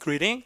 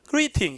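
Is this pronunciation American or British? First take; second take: American; British. First: The middle t is flapped, sounding soft. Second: The middle t is a crisp, clear t. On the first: "미국 가면 greeting" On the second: "영국 가면 뭐라고요? greeting"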